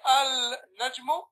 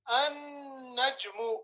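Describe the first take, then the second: First: The L sound is clearly pronounced before N. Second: The L merges into a doubled N sound. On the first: The speaker calls it wrong. "you don't say Al Najmu" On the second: The speaker calls it right. "You say"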